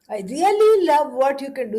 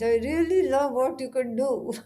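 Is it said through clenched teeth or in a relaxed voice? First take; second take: relaxed voice; clenched teeth. First: It is said in a relaxed, open voice. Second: It is said grudgingly through clenched teeth.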